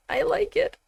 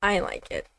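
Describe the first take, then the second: First: High, giddy, swooning squeal. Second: Said in the usual way. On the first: Real, not acted. Gamer swooning over a game character's voice, giddy squeal. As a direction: gush it out like a smitten fan. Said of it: "Are you serious, [name]? Get a hold of yourself". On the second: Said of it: "Get a hold of yourself".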